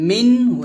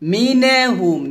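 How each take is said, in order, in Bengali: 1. n সরাসরি h-এর সাথে মিশে যায়, মাঝে কোনো স্বরধ্বনি নেই। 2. n আর h-এর মাঝে একটা অতিরিক্ত স্বরধ্বনি শোনা যায়। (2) "মিনে বলা যাবে না"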